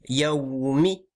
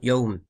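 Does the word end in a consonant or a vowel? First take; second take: vowel; consonant. First: The word ends with a short vowel. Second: The word ends on a consonant. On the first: The speaker calls it right. "c'est Yaoumi" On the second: The speaker calls it wrong. "On dit pas Yao, Yaoum"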